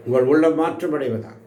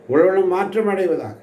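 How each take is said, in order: First: Said in the usual way. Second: Higher, stronger blessing on உள்ளம்; emphatic repeat. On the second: Shown as a demonstration. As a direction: proclaim it again with more force. (உள்ளம் என்பதை உயர்த்தி அழுத்தமாக மீண்டும் சொல்லுதல்) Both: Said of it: "repeated with force".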